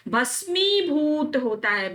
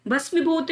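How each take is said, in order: First: भस्मीभूत slowly, with long mee and bhoo; correct pronunciation. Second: भस्मीभूत with a short i; wrong pronunciation. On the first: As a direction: stretch भस्मीभूत as bhas-meee-bhoot. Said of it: "बड़ी ई की मात्रा". (भस्मीभूत में लंबी 'मी') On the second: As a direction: say भस्मीभूत quickly as bhas-mi-bhoot. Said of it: "भस्मीभूत नहीं होता". (भस्मीभूत में छोटी 'मि') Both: Shown as a demonstration.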